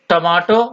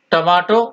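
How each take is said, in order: Both takes have the same delivery.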